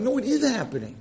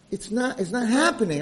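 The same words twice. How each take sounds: First: "is" punched in firm contradiction; high-pitched rebuttal with weight on "is"; stress on IS. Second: "not" stressed in a doubting denial; high-pitched denial with weight on "not". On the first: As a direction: insist back, hitting "is". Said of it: "I'm like". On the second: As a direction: deny it, leaning on "not". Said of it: "they were like". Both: Retold or imitated.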